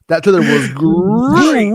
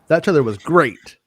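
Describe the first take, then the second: First: It is said in a Tony the Tiger voice. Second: It is read in a plain voice.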